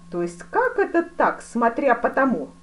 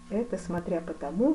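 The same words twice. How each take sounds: First: Slow, loud, high-pitched "смотря по тому?" falling at the end; indignant echo. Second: Said in the usual way. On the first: A narrator's reading. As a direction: throw "смотря по тому" back loudly and slowly, demanding. Duke throws the answer back, indignant. (возмущённо, громко переспрашивая «смотря по тому»)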